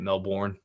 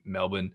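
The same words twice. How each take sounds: First: It is said with an American pronunciation. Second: It is said with an Australian pronunciation.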